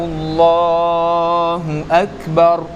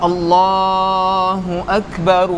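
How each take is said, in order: Both takes have the same delivery.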